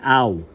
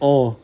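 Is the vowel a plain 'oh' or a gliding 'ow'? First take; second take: ow; oh. First: The vowel glides from 'ah' to 'oo'. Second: The vowel is a single plain 'oh' sound. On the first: The speaker calls it right. "they say au" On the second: The speaker calls it wrong. "they don't say oh"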